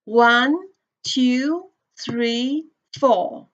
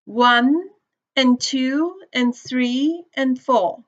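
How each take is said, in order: First: Four evenly spaced stressed counts; even beats. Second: Slow, with one, two, three, four on the beat and each "and" squeezed weak between them; a teacher showing stress-timed rhythm, "and" reduced between the beats. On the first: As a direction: count out one, two, three, four, each a steady beat. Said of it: "So we can see, like". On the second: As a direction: keep the beat on the numbers and slip each "and" in quick and weak. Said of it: "they should be read faster and connected". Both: Shown as a demonstration.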